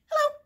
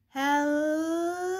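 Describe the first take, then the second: First: It is said fast. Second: It is said slowly.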